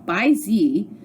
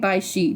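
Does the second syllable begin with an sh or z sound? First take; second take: z sound; sh sound. First: The second syllable begins with a z sound. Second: The second syllable begins with an sh sound. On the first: "it's spelled by Z" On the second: "I'm saying Bai Shi now"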